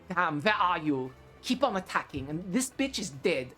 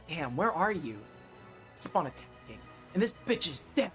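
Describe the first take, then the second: First: It is read in a put-on German accent. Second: It is read in the speaker's normal voice.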